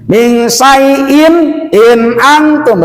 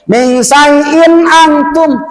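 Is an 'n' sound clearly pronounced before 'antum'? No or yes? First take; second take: yes; no. First: A clear 'in' is heard before antum. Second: The n runs straight into antum. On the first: The speaker calls it right. "betul tak?" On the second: The speaker calls it wrong. "salah. Min syai'in antum berarti membuang huruf hamzah"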